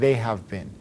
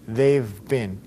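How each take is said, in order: First: Each word is said fully and separately. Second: The words are contracted to two syllables. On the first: "Instead of saying" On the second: "That's how you pronounce it"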